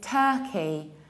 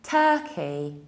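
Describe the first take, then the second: The two takes are said the same way.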